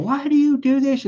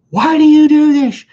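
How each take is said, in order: First: Higher exasperated question. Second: Much higher, louder, yelling the question; exasperated shout. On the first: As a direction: ask it again, deflated. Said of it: "You know". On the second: Man yelling at ex who hung up on client, exasperated shout. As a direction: blow up at her in disbelief. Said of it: "I'm like". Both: Retold or imitated.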